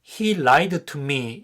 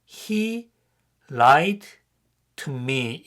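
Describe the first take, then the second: First: The words are linked and the d disappears. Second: Each word is said separately, with a clear d. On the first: "연음해서 ... 앞에 D가 없는 것처럼 발음이 됩니다" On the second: "단어를 하나씩 말하면"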